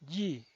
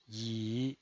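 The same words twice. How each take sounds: First: The pitch falls from high to low. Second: The pitch dips low, then rises. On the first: "El cuarto tono es un tono bajado" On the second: "desciende primero ... para ascender luego"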